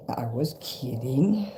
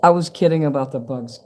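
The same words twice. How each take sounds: First: Softer, slow "I was kidding" with a rise; soft aside. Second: Said in the usual way. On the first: Real, not acted. Reassuring Kim, soft slow teasing aside. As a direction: drop way down and tease.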